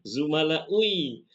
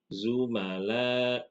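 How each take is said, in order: First: A 'u' sound comes before the final 'i'. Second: No 'u' sound comes before the final 'i'. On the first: The speaker calls it wrong. "berat zumalaui" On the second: The speaker calls it right. "harokat hamzahnya berubah menjadi kasroh"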